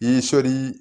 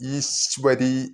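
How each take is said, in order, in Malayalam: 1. 'sh' ഉം 'v' ഉം വ്യക്തമല്ല. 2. 'sh' ശബ്ദം വ്യക്തമാണ്, പിന്നാലെ 'v'. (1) "എന്ന് ചൊല്ലിപ്പോവരുത്" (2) "ഒരു ശകാരവും പ്ലസ് വകാരവും... ഈശ്വരി എന്ന് തന്നെ കേൾക്കണം"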